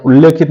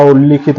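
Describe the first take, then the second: First: उल्लेखित said with a clear e vowel, ulle-khit; wrong form. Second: उल्लिखित said with a short i, ulli-khit; correct form. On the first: Teacher showing students the wrong spelling, stressed. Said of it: "उल्लेखित नहीं होता". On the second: Teacher giving students the correct spelling, clearly. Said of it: "उल्लिखित होता है". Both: Shown as a demonstration.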